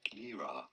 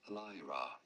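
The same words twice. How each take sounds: First: The first syllable does not sound like 'lie'. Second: The first syllable sounds like the word 'lie'. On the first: The speaker calls it wrong. "it is not Lyra" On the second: The speaker calls it right. "but rather Lyra"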